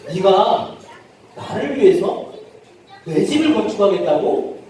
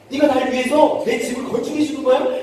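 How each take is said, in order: First: It sounds incredulous and challenging. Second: It sounds delighted and excited.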